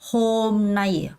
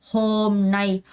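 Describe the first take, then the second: The two takes are said the same way.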